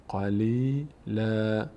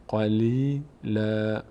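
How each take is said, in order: The two takes are said the same way.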